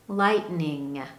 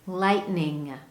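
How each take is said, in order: No difference in how they are said.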